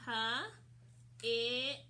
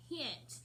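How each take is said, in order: First: "H-it" as three sounds, huh, short i, t, with long gaps; sounded out slowly. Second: Said in the usual way. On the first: Shown as a demonstration. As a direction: say "H-it" one sound at a time, as if writing it. Sounds out while writing.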